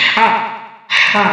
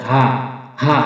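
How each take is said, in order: First: "হা" squeezed from the middle of the throat; pressed throat sound. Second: "হা" as an easy h from the bottom of the throat; easy throat sound. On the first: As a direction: push "হা" out as a strong, constricted h. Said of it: "আওয়াজকে চাপ দিয়ে". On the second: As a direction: let "হা" out freely, without pressure. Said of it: "হলকের শুরু হতে সহজ আওয়াজে". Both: Shown as a demonstration.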